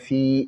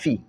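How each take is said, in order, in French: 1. La voyelle dans fi est longue, on la tire. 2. La voyelle dans fi reste courte. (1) "Non, pas fi" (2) "Il ne faut pas tirer le fi"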